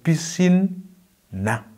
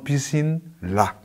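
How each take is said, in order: First: The syllable after piscine begins with an n sound. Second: The syllable after piscine begins with an l sound. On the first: The speaker calls it right. "on va dire piscine na" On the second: The speaker calls it wrong. "et non piscine là"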